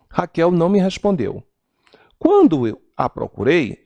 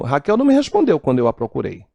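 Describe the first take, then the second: First: There is a pause after "respondeu". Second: There is no pause after "respondeu".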